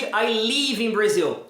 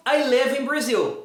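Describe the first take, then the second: First: Slow sentence, "live" said as leev; long Portuguese I in "live"; wrong long vowel. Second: Slow sentence, "live" close to lev; measured example with lax "live"; correct short vowel. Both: Shown as a demonstration. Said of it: "Nada de".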